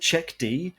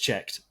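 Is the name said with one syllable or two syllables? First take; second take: two syllables; one syllable. First: It is said as two syllables, ending in dee. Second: It is said as one syllable, like checked. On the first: The speaker calls it wrong. "a few people came back with, "Is it Check D?" And I'm like, no" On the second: The speaker calls it right. "So it's checked, as in it has been checked"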